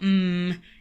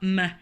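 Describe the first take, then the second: First: Only the letter's sound is said. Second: The letter's full name is said. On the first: The speaker calls it right. "or M" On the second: The speaker calls it wrong. "It's not M"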